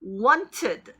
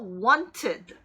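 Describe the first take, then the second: No difference in how they are said.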